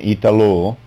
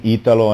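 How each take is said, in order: First: The name is said with a French pronunciation. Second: The name is said with an Italian pronunciation. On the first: "in French" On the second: "In Italian"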